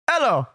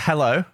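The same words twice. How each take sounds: First: It is said in an imitated old man's voice. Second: It is said in the speaker's normal voice. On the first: "I just do it in his voice" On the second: "usually I answer hello"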